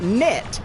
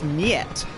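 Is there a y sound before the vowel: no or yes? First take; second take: no; yes. First: The vowel comes with no y glide before it. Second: A y glide comes before the vowel. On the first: The speaker calls it wrong. "It's not net" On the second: The speaker calls it right. "it's niet"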